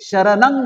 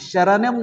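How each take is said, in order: First: The word ends with an ng sound. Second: The word ends with an m sound. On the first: The speaker calls it right. "शरणंग म्हणायला पाहिजे" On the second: The speaker calls it wrong. "शरणम नाही म्हणायला पाहिजे"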